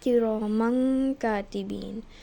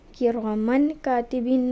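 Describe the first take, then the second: First: The n sound is hidden into a nasal. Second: The n sound is said fully and clearly. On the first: The speaker calls it right. "बल्कि हमने इफ़ा करके पढ़ा" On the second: The speaker calls it wrong. "अब हमने कि रोमन कातिबीन नहीं पढ़ा"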